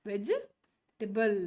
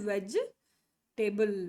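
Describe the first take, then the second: No difference in how they are said.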